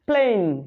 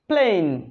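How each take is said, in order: Both takes have the same delivery.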